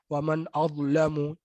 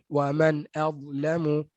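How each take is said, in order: First: The hamzah is said thick and heavy. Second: The hamzah is said thin and light. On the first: The speaker calls it wrong. "Dia tebal a, hamzah tu" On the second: The speaker calls it right. "masukkan dengan cara yang betul"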